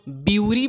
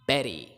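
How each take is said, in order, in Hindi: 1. इसकी शुरुआत 'byoo' की आवाज़ से होती है। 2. इसकी शुरुआत 'ber' की आवाज़ से होती है। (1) "इसको कुछ लोग ब्यूरी बोलते हैं जो कि बिल्कुल गलत है" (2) "बट इट्स बेरी"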